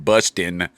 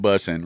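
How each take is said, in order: First: A clear T sound is heard mid-word. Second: No T sound is heard mid-word. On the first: The speaker calls it right. "There's a T in busting" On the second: The speaker calls it wrong. "not bussing"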